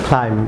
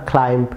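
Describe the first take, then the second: First: ক্লাইম্ব said "klaim", ending on m; silent b. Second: ক্লাইম্ব said "klaimp", with a final stop; common mispronunciation. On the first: Teacher has viewers repeat, ক্লাইম্ব with silent b. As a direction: end ক্লাইম্ব on a hummed m, no b. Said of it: "silent থাকবে". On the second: Teacher shows viewers a wrong pronunciation, ক্লাইম্ব with a stop. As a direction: pop a p-like b after the m in ক্লাইম্ব. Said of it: "wrong pronunciation". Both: Shown as a demonstration.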